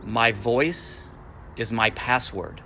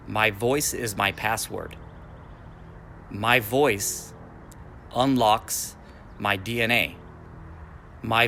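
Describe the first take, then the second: First: Said in the usual way. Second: Slow, deliberate repeat for listeners to echo; slow chant of a personal mantra; slow affirmation. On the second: Shown as a demonstration. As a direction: lead it slowly so they can say it along. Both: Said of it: "and you can say this with me".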